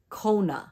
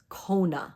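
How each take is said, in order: The two takes are said the same way.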